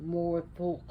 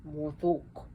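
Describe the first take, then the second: Both takes have the same delivery.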